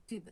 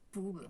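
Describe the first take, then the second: First: "pub" said as "tube", with a fronted French U. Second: "pub" said as "toube", with an OO vowel; Spanish-accented U. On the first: Shown as a demonstration. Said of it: "parce que j'ai pas dit pub". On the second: Retold or imitated. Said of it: "j'ai dit".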